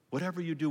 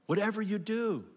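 First: Said in the usual way. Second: "Whatever you do" lifted much higher, pressing on "do"; emphatic higher take. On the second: Shown as a demonstration. Preacher urging the congregation, emphatic and high.

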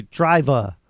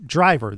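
First: "driver" said as "drivah" with the final R dropped; film accent, no R. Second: Said in the usual way. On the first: Shown as a demonstration. Explaining the accent, "driver" without its R. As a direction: drop the last R in "driver" like the film's accent. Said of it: "they would say driver". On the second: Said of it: "If they say".

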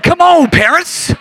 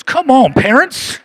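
First: Higher, louder and slower call; louder repeat. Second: Said in the usual way. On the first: Shown as a demonstration. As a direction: call out to the parents again. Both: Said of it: "I said".

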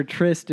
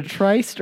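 First: Tryst with a short i, as in "wrist"; short-i pronunciation. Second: Tryst with a long i, as in "iced"; long-i pronunciation. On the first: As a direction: say tryst to rhyme with "list". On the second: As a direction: say tryst to rhyme with "priced". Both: Shown as a demonstration. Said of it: "is that how you pronounce it?".

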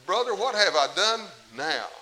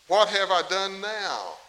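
First: Louder, slower plea to his brother; exasperated David to brother. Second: Slow, louder exasperated plea; exasperated David. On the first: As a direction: appeal to him, wounded and tired. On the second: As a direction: drag it out like a fed-up younger brother. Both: Retold or imitated. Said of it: "I can just see David saying that".

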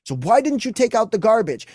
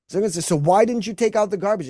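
First: Much higher, louder nagging question; mock angry wife. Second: Higher, louder accusing question; mock accusing wife. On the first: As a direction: nag him hard about the garbage. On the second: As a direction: confront him about the garbage. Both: Acted wife's accusing question.

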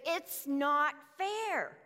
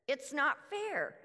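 First: Slow, whining complaint, louder; long aggrieved moan of it's not fair; drawn-out grumble. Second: Said in the usual way. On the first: Retold or imitated. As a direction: stretch out fair like a sulking worker. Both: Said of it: "they begin to grumble".

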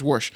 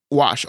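First: "wash" with an r, as worsh; dialect pronunciation. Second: "wash" with no r; standard pronunciation. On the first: Retold or imitated. Host showing the local form, "wash" as worsh. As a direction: put an r into "wash". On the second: Shown as a demonstration. Host naming the word being discussed, r-less "wash". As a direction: say "wash" with an open ah. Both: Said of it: "that's how you pronounce wash over there".

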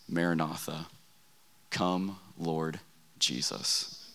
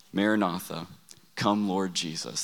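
First: Soft, low, fading almost to a whisper; hushed grandfather. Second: Said in the usual way. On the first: Retold or imitated. Grandfather hushes the key prayer to his grandsons, softly. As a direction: let the words sink to a reverent hush.

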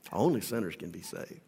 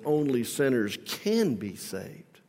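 First: Lower, softer echo of "Only sinners can be saved"; quiet repeat. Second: Slow, stressing "can"; emphatic. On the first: Preacher repeats the truth softly, low and quiet. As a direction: drop it to a soft, low echo. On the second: Preacher drives the point home, slow stress on "can". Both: Acted.

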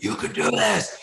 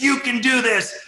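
First: Higher, pushing encouragement; dad urging the scared kid, rising push. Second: Much higher, loud yell of encouragement; dad screaming at the kid on the mountain. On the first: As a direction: coax him off the mountain. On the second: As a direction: scream it right into his face. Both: Retold or imitated. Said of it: "screaming in the guy's face".

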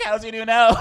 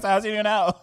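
First: Mock blunt question. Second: High, loud question through laughter; laughing blunt question. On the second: Retold or imitated. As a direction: blurt it out laughing. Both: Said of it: "I was like".

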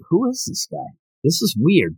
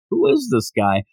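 First: Puzzled surprise. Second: Said in the usual way. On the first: Pretend. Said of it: "And you're looking like". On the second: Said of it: "your interest does go up".

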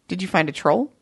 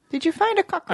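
First: Said in the usual way. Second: Much higher playful question; high teasing. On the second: Pretend. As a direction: tease it up high.

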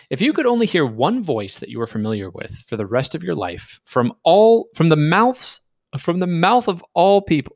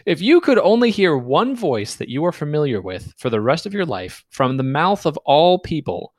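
First: Stumbling read. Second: Said in the usual way. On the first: Real, not acted. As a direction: read it with false starts, restarting the phrase. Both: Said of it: "Let me read that again".

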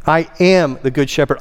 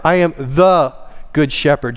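First: "am" punched, the rest lighter; stress on AM. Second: "the" stretched and punched as the one and only; stress on THE. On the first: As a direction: declare it with the weight on "am". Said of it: "It's to place emphasis". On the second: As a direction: put all the weight on "the". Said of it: "just like he is the door". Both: Shown as a demonstration.

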